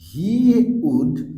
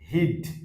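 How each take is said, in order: First: It is said as two full words. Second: It is shortened into a single syllable.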